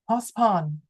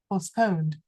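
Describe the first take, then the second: First: The vowels are not both clear O sounds. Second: Both vowels are pronounced as clear O sounds. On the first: The speaker calls it wrong. "It's not postpone" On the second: The speaker calls it right. "So they are both O"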